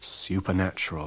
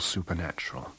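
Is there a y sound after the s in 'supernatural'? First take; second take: yes; no. First: A y sound follows the s. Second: No y sound follows the s. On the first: "historical yod retained ... even in the word supernatural" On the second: "which I should call supernatural"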